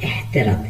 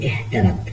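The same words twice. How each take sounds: Both takes have the same delivery.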